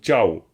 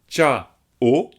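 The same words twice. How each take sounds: First: The word is said as one gliding syllable. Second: The word is split into two separate syllables. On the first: The speaker calls it right. "c'est une seule syllabe. Donc ciao" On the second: The speaker calls it wrong. "ce serait deux syllabes"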